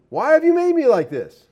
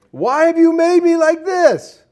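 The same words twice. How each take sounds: First: High, whining voice of the clay; a pot complaining to its maker; whiny clay pot. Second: High, slow, whining and louder; whiny clay pot. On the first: Clay jar whining at the potter, high and petulant. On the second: Clay mocks the potter in a high, slow whine. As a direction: stretch out the clay's complaint. Clay talks back, repeated. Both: Acted.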